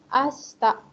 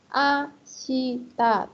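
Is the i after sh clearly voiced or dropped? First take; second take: dropped; clearly voiced. First: The i after sh is dropped. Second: The i after sh is clearly pronounced. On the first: "kadang ada yang membaca ashita. Jadi i-nya hilang" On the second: "Kalau secara huruf ashita"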